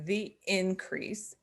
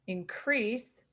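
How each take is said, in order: First: Increase stressed on the first syllable; slow INcrease, the noun form. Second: Increase stressed on the second syllable; slow inCREASE, the verb form. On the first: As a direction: say increase with the weight on IN. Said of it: "is the noun". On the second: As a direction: say increase with the weight on CREASE. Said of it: "is a verb". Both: Shown as a demonstration.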